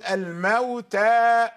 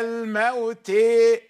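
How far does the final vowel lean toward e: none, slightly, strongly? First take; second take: none; strongly. First: The final vowel is a fully open a. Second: The final vowel leans strongly toward e. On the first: "عندما نقرأ بالفتح نفتح الفم بصوت الحرف" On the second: "فإذا قرأنا بالإمالة"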